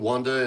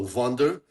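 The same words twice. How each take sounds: First: The name begins with a W sound. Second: The name begins with a V sound. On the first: This is the form the owner of the name is used to and goes by. "I'm so used to Wonder, and I kind of like it" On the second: This is the original German way of saying the name. "it's a German name, so it says W as a V"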